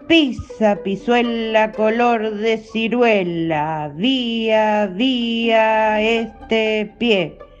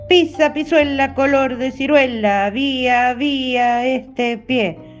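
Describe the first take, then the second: First: It is recited at a slow pace. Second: It is recited at a fast pace. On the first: "Primero despacito" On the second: "Ahora rápido"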